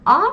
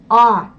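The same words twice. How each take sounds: First: A short and forward in the mouth; brief French A; French vowel. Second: Full Russian A from the throat; Russian vowel. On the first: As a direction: say A lightly at the front. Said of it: "premièrement une voyelle française". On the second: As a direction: draw out A further back. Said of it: "puis une voyelle russe". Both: Shown as a demonstration.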